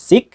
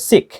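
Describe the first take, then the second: First: "সিক" ending in plain unaspirated k; no puff on the final k of "সিক"; common local pronunciation. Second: "সিক" ending in aspirated kh; corrected pronunciation. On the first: Teacher shows learners the usual habit, unaspirated k in "সিক". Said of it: "আমরা যেটা উচ্চারণ করি সিক". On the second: Teacher corrects learners, aspirated final k in "সিক". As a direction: release the final k of "সিক" with a puff. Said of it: "উচ্চারণ হবে সিক". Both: Shown as a demonstration.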